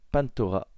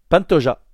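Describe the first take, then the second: First: The consonant before the final vowel sounds like R. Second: The consonant before the final vowel sounds like J. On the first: The speaker calls it wrong. "on ne prononce pas les J en R" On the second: The speaker calls it right. "c'est Pantoja"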